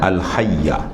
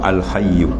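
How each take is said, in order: First: The word ends with an 'a' vowel. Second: The word ends with a 'u' vowel. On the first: The word is an attribute of the divine name. "Kalau baca al hayyah, ya, dia jadi maknanya ha, sifat" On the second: The word is the predicate of the pronoun. "Kalau dibaca al hayyu, eh, dia jadi khabar bagi huwa"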